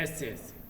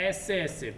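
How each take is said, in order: First: Much softer, strained ऐसे ऐसे while holding the stomach; ऐसे ऐसे pushed out quietly through the pain; pressing his belly. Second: Said in the usual way. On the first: Acted. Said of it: "पेट को दबाते हुए बोलता है". (पेट दबाते हुए धीमी आवाज़ में ऐसे ऐसे) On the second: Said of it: "Mohan बोल रहा है".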